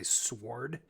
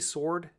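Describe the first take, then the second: First: The W sound is pronounced. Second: The W sound is silent. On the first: The speaker calls it wrong. "I don't ever say sword" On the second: The speaker calls it right. "when I say sword"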